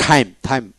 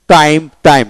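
First: টাইম opened with a puffed t-h, "thaim"; British pronunciation. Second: টাইম with an unpuffed t; plain T. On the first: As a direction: put a burst of air on the t of টাইম. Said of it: "ব্রিটিশে টাইম". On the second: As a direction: say টাইম with no air burst on the t. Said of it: "ফোনেটিক্সে কি?". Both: Shown as a demonstration.

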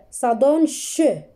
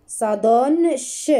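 First: "ch" said as a long sh hiss; teacher sounding out ch. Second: "ch" as a long sh, slow; teacher repeating ch; sound ch again. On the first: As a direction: stretch out the "ch" sound. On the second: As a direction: hold the "ch" sound. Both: Shown as a demonstration.

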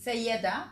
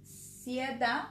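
First: "Sayeda" said as sa-YEE-da with a rising end; "Sayeda" in three syllables, lifted and a little louder; name corrected. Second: "Sieda" said as SEE-da, two syllables; "Sieda" with a long ee and the stress up front; name said wrong. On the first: Host repeats the guest's corrected name as "Sayeda". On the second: Host says the guest's name wrong as "Sieda". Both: Real, not acted.

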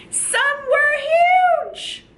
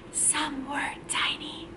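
First: Put-on big high shout for children to copy; really loud. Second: Whisper. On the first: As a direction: belt it out as if huge. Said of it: "we're gonna be really loud". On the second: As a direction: whisper it as if tiny. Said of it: "We gotta whisper that part". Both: Shown as a demonstration.

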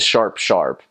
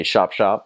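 First: Said in the usual way. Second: "Shop, shop" with the R dropped; accented "sharp". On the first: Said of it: "which is". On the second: Shown as a demonstration. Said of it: "because of the, of the accent".

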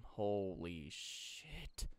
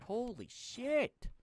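First: Low, soft, very drawn-out exclamation; weary dismay. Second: High, drawn-out exclamation of dismay; exasperated outburst. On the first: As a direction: stretch each word out slowly and quietly. Dismayed mutter at the mess. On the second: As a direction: stretch it out and let it leap upward. Exasperated at the disorganized storage. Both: Real, not acted.

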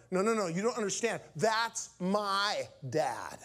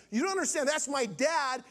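First: A quick rush of no's, then THAT'S MY DAD word by word; insistent emphasis. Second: Higher-pitched, pressing plea to be understood; urgent insistence. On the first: Son correcting a confused minister, slow insistent emphasis. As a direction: stretch "That's my dad" very slowly, each word weighted. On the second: Son making the minister understand, urgent and high. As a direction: push "That's my dad" out high and continuous. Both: Retold or imitated.

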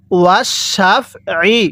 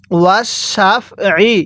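Both takes have the same delivery.

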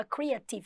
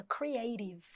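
First: CREATIVE read as "cree-a-TEE-v", Portuguese vowels; mispronunciation. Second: CREATIVE as "cree-AY-tiv", stress on AY; correct pronunciation. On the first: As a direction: say creative with stress on a "tee" syllable. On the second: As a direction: say creative with a long AY and tapped T. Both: Shown as a demonstration. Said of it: "que não fala creative".

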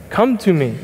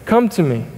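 The two takes are said the same way.

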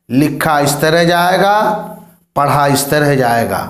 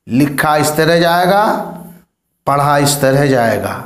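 No difference in how they are said.

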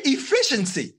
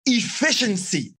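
First: Said in the usual way. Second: Efficiency drawn out slowly, each syllable weighed; slow emphasis. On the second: Shown as a demonstration. Teacher stressing Efficiency to the class, slow and weighty. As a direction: lean slowly into the word Efficiency.

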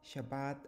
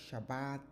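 First: Shabbat with a clear sh and a short rise at the end; saying Shabbat clearly. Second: Shabbat with the opening sh barely heard; saying Shabbat. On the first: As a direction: give "Shabbat" a full sh, rising slightly. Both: Shown as a demonstration. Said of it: "several variations in spelling and pronunciation".

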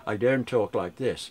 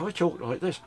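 First: Slow, over-careful proper diction, lightly done; mock proper speech. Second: Said in the usual way. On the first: Shown as a demonstration. Mocking the critic who corrected his speech, slow and proper. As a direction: put on a correct-speaking voice, slowly. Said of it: "you're saying that absolutely correctly". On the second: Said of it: "that's the way I talk".

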